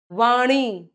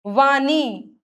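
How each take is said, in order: First: वाणी with curled-tongue ṇ; "vaaṇee", retroflex. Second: वाणी with plain n; tongue on teeth in वाणी; dental-n error. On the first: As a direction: flap the nasal in वाणी. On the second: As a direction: say वाणी wrongly as "vaanee". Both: Shown as a demonstration. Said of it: "न और ण की अशुद्धियां".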